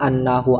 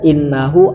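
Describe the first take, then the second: First: The word begins with an 'a' vowel. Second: The word begins with an 'i' vowel. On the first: It is read as standing for a verbal noun. "membaca hamzahnya fathah, berarti bacanya idzan annahu" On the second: It starts a new clause. "hamzanya dibaca kasroh sehingga bacanya idzan innahu"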